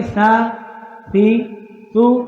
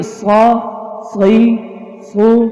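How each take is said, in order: First: سا سی سو with a plain, light س; soft s sound. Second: صا صی صو with a full, heavy ص; heavy s sound. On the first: Teacher to class, contrasting سین with صاد, soft s. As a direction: say سا سی سو with a soft thin s. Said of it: "سا کی آواز نکلے گی". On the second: Teacher to class, contrasting صاد with سین, heavy s. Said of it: "صاد کی آواز نکلے گی". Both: Shown as a demonstration.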